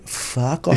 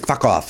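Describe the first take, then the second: First: The vowel in the first word is drawn out. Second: The vowel in the first word is short. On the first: The speaker calls it wrong. "you're stretching the U out a little too much" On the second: The speaker calls it right. "that's perfect. A little quicker to the point"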